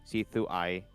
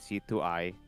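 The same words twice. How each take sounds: First: The name ends with an 'eye' sound. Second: The same.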